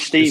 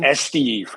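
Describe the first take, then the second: First: The name begins directly with the S sound. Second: The name begins with an E sound before S. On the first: The speaker calls it wrong. "the Spanish wouldn't say Steve" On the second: The speaker calls it right. "it would be Esteve, because the S has got the E sound on the front of it"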